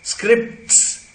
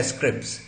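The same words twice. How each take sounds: First: "स्क्रिप्ट्स" with p, t and s all sounded; full-cluster pronunciation. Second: "स्क्रिप्ट्स" with no t, like "scrips"; spoken reduced form. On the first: Teacher showing the careful form, full-cluster pronunciation. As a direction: articulate the t in "स्क्रिप्ट्स". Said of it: "हम बोलते हैं". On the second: Teacher showing spoken English, t-dropped pronunciation. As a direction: go straight from p to s in "स्क्रिप्ट्स". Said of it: "ट गया है इसमें से". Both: Shown as a demonstration.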